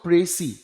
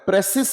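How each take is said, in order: First: The word ends on a vowel without s. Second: The word ends with an audible s sound. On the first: The speaker calls it right. "It is called प्रेसी" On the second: The speaker calls it wrong. "इसको लोग बोलते भी गलत है"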